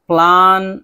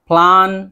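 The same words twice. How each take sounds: No difference in how they are said.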